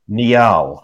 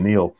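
First: The name is said with two syllables. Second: The name is said with one syllable. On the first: "It's really a two-syllable name" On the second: "my pronunciation"

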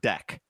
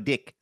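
First: The vowel is said with a plain American accent. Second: The vowel is raised, as in a New Zealand accent. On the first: "I use the word deck" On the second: "you always go up. You go dick"

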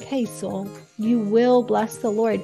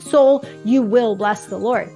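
First: It is said gently, as a warm invitation. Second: It is said sternly, as a forceful command.

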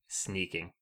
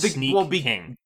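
First: It is run together as one word. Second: It is said as two separate words. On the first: It means sneaking around. "The way that you're pronouncing that, I never realized it's like Sneaking" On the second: It names a king who sneaks. "The game is called Sneak King"

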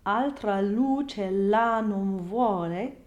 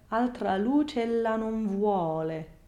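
First: Stress falls heavily on every word. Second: One long line, stressed mainly on vuole. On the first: The speaker calls it wrong. "So not" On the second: The speaker calls it right. "the stress of the entire verse is on the word vuole"

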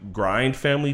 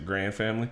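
First: Grind is said with a plain 'eye' vowel. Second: Grind is said with a flat 'ah' vowel.

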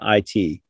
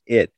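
First: It is spelled out as two letters. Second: It is said as one short word. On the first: It names a computer support department. The speaker calls it wrong. "I was thinking as like being the IT department" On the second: It names a dark power. The speaker calls it right. "I'm supposed to read it as just it"

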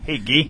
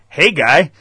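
First: Said in a French Canadian accent, sounding like 'gee'. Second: Said in an English accent with a clear 'guy'. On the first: "you know how the fucking French Canadians" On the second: "let me do English"

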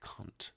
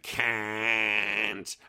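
First: The word is spoken with an English accent. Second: The word is spoken with an Australian accent. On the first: The speaker calls it right. "when I'm in England, I think it's actually pronounced correctly" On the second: The speaker calls it wrong. "When you're in Australia, though, they go"

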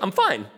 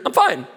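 First: It is said at normal pitch. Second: It is said at a much higher pitch.

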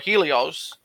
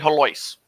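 First: It is said the standard way, as Helios. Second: It is said the local way, as Helois. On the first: This is how the name is supposed to be pronounced. "should be pronounced Helios or Helios" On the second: This is how locals actually pronounce the name. "We say Helois"

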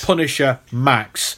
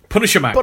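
First: The two words are separated by a break. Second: The two words run together without a break. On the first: The title is two separate words. The speaker calls it wrong. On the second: The title is a single word. The speaker calls it right. "All one word"

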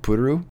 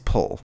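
First: The name is said as two Japanese syllables. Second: The name is said as one English syllable. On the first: This is how Japanese speakers say it. "it doesn't really work in Japanese. So they say like Puru" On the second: This is how English speakers would say it. "the closest correct English pronunciation of her name is pull"

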